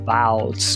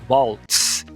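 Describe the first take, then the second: First: The word begins with a V sound. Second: The word begins with a W sound. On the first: The speaker calls it wrong. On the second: The speaker calls it right.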